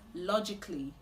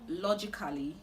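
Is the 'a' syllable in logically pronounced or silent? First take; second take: silent; pronounced. First: The 'a' syllable before -lly is silent. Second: The 'a' syllable before -lly is pronounced. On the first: The speaker calls it right. "The A at the end of the word is silent" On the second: The speaker calls it wrong. "So it's not logically"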